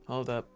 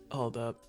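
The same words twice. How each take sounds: The two takes are said the same way.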